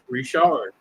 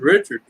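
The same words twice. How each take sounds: First: The name is said in a Louisiana way. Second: The name is said in a northern US way. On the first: "Here it's Richard" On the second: "up north they call Richard Richard"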